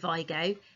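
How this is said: Vigo is said with an English pronunciation. "in Spain, they don't pronounce it Vigo"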